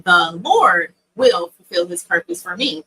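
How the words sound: The stress is on Lord.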